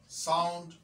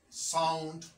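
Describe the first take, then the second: Both takes have the same delivery.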